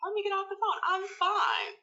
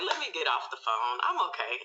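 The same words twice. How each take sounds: First: Much higher, strained repeat; retold exasperated insistence. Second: Said in the usual way. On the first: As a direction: insist you're fine in a high, tight voice. Same words repeated, now agitated.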